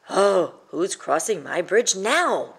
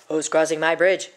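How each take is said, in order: First: Slow, weary grumbling troll; soggy grumble. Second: A troll calling out, a bit louder; troll's shout. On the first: Wet troll complaining about another visitor, slow grumble. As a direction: grumble it as if soaked and defeated. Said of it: "grumbled the troll with a soggy sigh". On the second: Troll challenging a traveler on his bridge, mildly shouted. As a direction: challenge whoever steps on the bridge. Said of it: "shouted the troll". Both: Acted.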